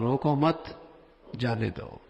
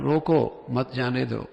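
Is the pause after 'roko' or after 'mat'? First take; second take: after mat; after roko. First: The pause comes right after mat. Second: The pause comes right after roko.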